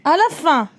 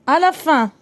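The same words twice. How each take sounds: The two takes are said the same way.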